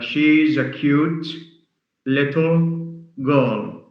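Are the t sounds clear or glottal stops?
clear. The t sounds are pronounced clearly.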